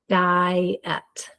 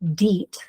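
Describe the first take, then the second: First: The vowels are read as two separate sounds. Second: The vowels are read as one long E. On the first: The speaker calls it right. "we divide between the two vowels" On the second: The speaker calls it wrong. "I E says E"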